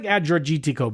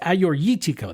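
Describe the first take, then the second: First: The name is read out as it is spelled. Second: The name is said with its Greek pronunciation. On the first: The speaker calls it wrong. "It looks like" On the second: The speaker calls it right. "but it's"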